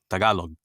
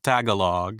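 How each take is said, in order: First: The vowels are clipped short. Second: The vowels are drawn out long. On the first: The speaker calls it right. "It's like staccato" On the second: The speaker calls it wrong. "it's not Tagalog"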